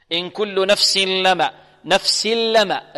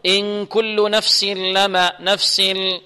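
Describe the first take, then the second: First: نفس لما recited with tanween turned straight into a doubled ل; slow recitation, "nafsil-lammā" free of nasality; merging without ghunnah. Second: نفس لما with a nasal hum slipped in before ل; slow, drawn-out recitation, humming through the nose between نفس and لما; wrongly nasalise the merge of نفس into لما; wrong added ghunnah. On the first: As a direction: go from س of نفس directly into a pure "ll", no nasal hum. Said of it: "بغير غنة، يعني بغير صوت من الخيشوم". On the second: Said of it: "البعض يخطئ يقول". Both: Shown as a demonstration.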